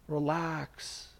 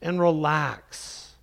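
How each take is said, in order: First: Relax said very softly, drawn out and falling; soft soothing relax. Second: Said in the usual way. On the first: Shown as a demonstration. Preacher calming his congregation, softly soothing. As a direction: breathe out the word Relax gently. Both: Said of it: "take a deep breath".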